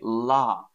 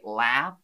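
First: It is said in a Southern British accent. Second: It is said in an American accent. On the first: "We say laugh. That's my accent" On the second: "an American would say laugh"

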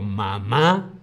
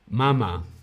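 First: The stress is on the last syllable. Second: The stress is on the first syllable. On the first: A noun meaning my mother. "con acento en la última A" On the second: A verb form: the baby nurses. "un verbo del verbo mamar"

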